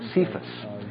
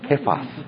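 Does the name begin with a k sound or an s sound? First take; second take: s sound; k sound. First: The name begins with an s sound. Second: The name begins with a k sound. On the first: This is the anglicized form of the name. "we say in English" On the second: This is the original Aramaic form of the name. "The Aramaic is actually Kephas"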